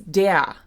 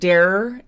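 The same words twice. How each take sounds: First: The final R is a vowel sound. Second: The final R is a consonant sound. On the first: The speaker calls it right. "it's der" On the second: The speaker calls it wrong. "It's not der"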